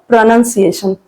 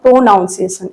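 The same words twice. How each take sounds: First: The second syllable sounds like 'nun'. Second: The second syllable sounds like 'noun'. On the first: The speaker calls it right. "it's a pronunciation" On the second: The speaker calls it wrong. "It's not pronunciation"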